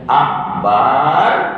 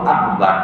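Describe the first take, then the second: First: The vowel after the b is drawn out long. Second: The vowel after the b is kept short. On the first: The word becomes the name of a musical instrument. The speaker calls it wrong. "huruf ba pada lafaz akbar tidak boleh dipanjangkan" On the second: It means God is the greatest. The speaker calls it right. "Allah yang maha besar"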